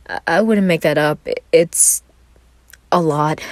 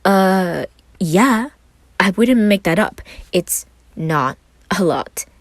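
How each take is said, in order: First: Said in the usual way. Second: Higher, louder teasing parody of his shy answer; playful mock echo; mocking imitation. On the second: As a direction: mimic him with air quotes. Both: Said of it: "put his hands up in air quotes".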